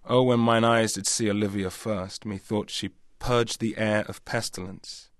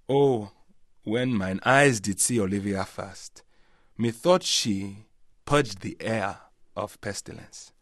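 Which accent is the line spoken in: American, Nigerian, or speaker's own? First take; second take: own accent; Nigerian. First: It is spoken in the speaker's natural accent. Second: It is spoken in a Nigerian accent. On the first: "which in my voice would be" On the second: "in a Nigerian accent, there'd be much more kind of, I suppose there'd be vowel sounds and different pauses"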